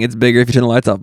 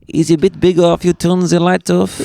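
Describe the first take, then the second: First: It is said without a put-on accent. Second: It is said in a put-on French accent.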